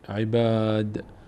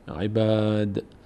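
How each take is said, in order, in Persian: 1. مصوت بعد از «ب» بلند است. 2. مصوت بعد از «ب» بلند است.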